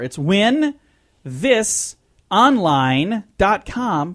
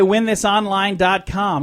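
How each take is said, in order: First: It is said more slowly. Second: It is said at normal speed.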